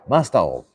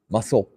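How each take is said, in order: First: It is said with plain Japanese katakana sounds. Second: It is said with fluent English-like sounds, clipped.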